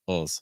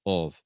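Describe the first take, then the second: No difference in how they are said.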